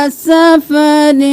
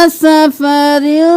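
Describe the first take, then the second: The two takes are said the same way.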